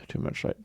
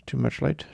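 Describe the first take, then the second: First: Much softer repeat, trailing off; fading grumble to no one; softer mutter. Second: Grumbling softly at the morning light; muttered. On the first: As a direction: say it again, barely aloud. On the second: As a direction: mutter it under your breath. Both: Real, not acted. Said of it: "not liking the coldness of the light".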